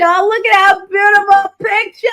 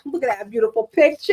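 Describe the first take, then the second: First: High, loud, slow exclamation; gushing. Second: Said in the usual way. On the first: Real, not acted. Showing viewers a picture of her son, loud gushing. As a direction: draw it out loudly in showy delight.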